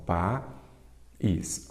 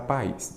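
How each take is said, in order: First: "país" slowly broken as pa, pause, ís; split into syllables. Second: Said in the usual way. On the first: Shown as a demonstration. Teacher separating a word for students, "país" syllable by syllable. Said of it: "Vamos separar país". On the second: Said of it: "Vamos separar".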